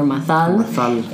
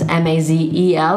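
First: The middle consonant is a lisped th sound. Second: The middle consonant is a buzzing z sound. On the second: "Mazel Tov is M-A-Z-E-L"

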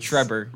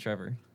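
First: The middle consonant is a B sound. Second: The middle consonant is a V sound. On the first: The speaker calls it right. "it's with a B" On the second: The speaker calls it wrong. "not Trevor"

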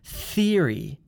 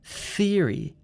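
First: The word begins with a th sound. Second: The same.

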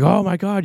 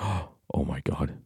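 First: It is said as a loud exclamation. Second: It is said hushed and quiet, with a gasp.

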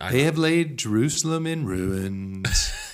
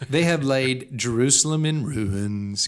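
First: It is read in a gloomy, droopy put-on voice. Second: It is read in a normal reading voice.

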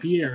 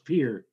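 First: The name is said with the Eastern pronunciation. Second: The name is said with the local pronunciation. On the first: This is how outsiders from the East say it. The speaker calls it wrong. "You Easterners call it that" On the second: This is how the residents say it. The speaker calls it right. "We call it just Pierre"

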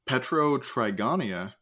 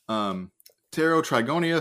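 First: The initial P is pronounced aloud. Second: The initial P is left silent. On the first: The speaker calls it wrong. "nope, that's a silent P" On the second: The speaker calls it right. "that's a silent P"

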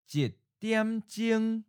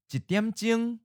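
First: It is said slowly and deliberately. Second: It is said at a natural, normal speed. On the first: "and then slowly" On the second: "First natural speed"

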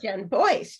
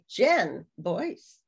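First: The stress falls on the second word. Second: The stress falls on the first word. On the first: "Instead of Jen Boyce" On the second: "you're like Jen Boyce. Jen"

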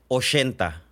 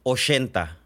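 First: It is said in a northern Sonoran accent. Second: The same.

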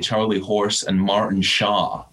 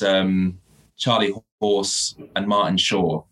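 First: It is said in an American accent. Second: It is said in a British accent.

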